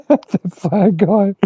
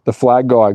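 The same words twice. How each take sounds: First: High, very slow and stretched; mock drawn out. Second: Said in the usual way. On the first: Real, not acted. Streamer greeting the flag-waving chat viewer, teasingly drawn out. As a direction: savour the words teasingly.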